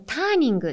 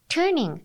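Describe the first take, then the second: First: The first vowel is an open 'ah' sound. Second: The first vowel is an 'er' sound. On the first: The speaker calls it wrong. "あーって四角く口を開ける" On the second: The speaker calls it right. "er ですね"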